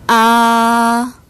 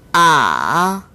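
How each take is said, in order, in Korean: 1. 음높이가 처음부터 끝까지 높고 평평하게 유지됩니다. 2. 음높이가 낮게 내려갔다가 다시 올라갑니다. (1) "제일성" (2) "제삼성"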